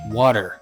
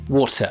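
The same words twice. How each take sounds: First: The middle T sounds almost like a D. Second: The middle T is a strong, crisp T. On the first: "almost indistinguishable from the D sound" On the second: "with the T sound overly stressed"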